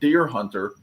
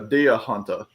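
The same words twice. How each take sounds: First: The R sounds are clearly pronounced. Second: The R sounds are dropped. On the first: "instead of deer hunter" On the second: "they'll drop their R's"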